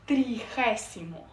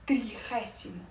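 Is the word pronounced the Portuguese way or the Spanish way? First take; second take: Spanish; Spanish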